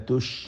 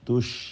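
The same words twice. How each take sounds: Both takes have the same delivery.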